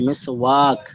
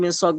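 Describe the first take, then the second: First: The vowel is drawn out long. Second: The vowel is said short, without drawing out. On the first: This is the Urdu way of saying it. "Urdu ভাষার সিস্টেমটা হচ্ছে এভাবে যে" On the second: This is the Bengali way of saying it. "বাংলায় মেসওয়াক বলবো আমরা"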